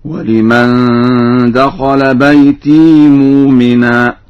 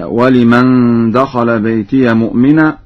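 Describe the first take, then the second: First: بيتي said baytee, long ee; slow chant, no vowel on the ya of بيتي; Warsh silent ya. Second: بيتي said baytiya; standard fatha ya. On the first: Teacher demonstrates Warsh's reading, silent ya. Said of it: "قرأ ورش بإسكان الياء هكذا". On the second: Teacher quotes the verse before Warsh, open ya. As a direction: ya with an a vowel in بيتي. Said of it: "قرأ ورش بإسكان الياء". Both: Shown as a demonstration.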